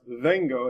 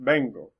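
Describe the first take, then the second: First: The word starts with a v sound. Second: The word starts with a hard b sound. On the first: The speaker calls it wrong. "instead of being pronounced vengo" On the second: The speaker calls it right. "you'll have a hard B sound"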